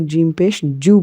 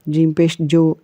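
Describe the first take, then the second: First: The final syllable ends in an 'oo' vowel. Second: The final syllable ends in an 'oh' vowel. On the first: The speaker calls it right. "इसको जीम पेश जू पढ़ना है" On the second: The speaker calls it wrong. "वो जीम पेश जो पढ़ते हैं, ... ऐसे नहीं पढ़ना है"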